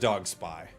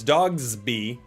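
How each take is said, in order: First: The s starts the second part: Dog-spy. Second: The s joins the first part: Dogs-by. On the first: The speaker calls it right. "I'm sure it is Dog Spy" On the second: The speaker calls it wrong. "Said wrong"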